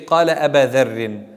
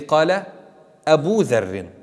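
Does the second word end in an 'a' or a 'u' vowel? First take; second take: a vowel; u vowel. First: The second word ends in an 'a' vowel. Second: The second word ends in a 'u' vowel. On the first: The speaker calls it wrong. "we don't say" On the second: The speaker calls it right. "We say"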